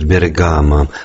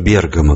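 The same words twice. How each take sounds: First: The name carries the usual Russian stress placement. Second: The name carries the original Italian stress placement. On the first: This is the common Russian habit. The speaker calls it wrong. "русские обычно произносят «Бергамо»" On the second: This is how it is said in the original. The speaker calls it right. "а не «Бергамо», как в оригинале"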